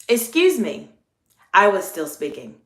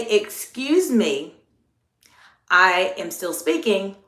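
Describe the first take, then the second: First: Polite, friendly interruption with usual volume; courteous, unforced "Excuse me"; friendly check. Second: Slow, measured "Excuse me, I am still speaking"; drawn-out, deliberate correction; lower-toned firm check. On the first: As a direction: keep it friendly while checking someone politely. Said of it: "my tone of voice was still very friendly". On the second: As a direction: hold the floor deliberately against an intentional interrupter. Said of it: "your tone of voice needs to go lower". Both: Shown as a demonstration.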